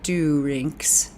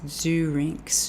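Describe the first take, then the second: First: The first consonant is a hard D. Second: The first consonant is a soft, buzzing sound. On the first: The speaker calls it wrong. "so it's not do rinks" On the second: The speaker calls it right. "the D is a bit softer"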